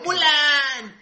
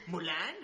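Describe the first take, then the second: First: Loud, high, drawn-out shout of the name; full-voiced mock cartoon yell; Mushu. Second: "Mulan" softer, with a questioning rise at the end; "Mulan" at normal pitch, lifting on the last syllable; Mushu. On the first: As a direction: holler the name like a cartoon character calling out. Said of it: "por como grita [name] al micrófono". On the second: Acted. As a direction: say "Mulan" as a quieter, tentative call.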